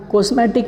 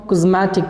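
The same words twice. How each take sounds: First: "कॉस्मेटिक" as kos-MAY-tik; common mispronunciation. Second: "कॉस्मेटिक" as kuz-MAA-tik; correct pronunciation. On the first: Teacher rejecting the usual reading, "कॉस्मेटिक" as kos-MAY-tik. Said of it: "नहीं पढ़ते हैं इसको". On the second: Teacher giving the right reading, "कॉस्मेटिक" as kuz-MAA-tik. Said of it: "हम कॉस्मेटिक पढ़ेंगे". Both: Shown as a demonstration.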